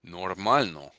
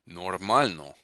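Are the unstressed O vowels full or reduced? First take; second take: full; full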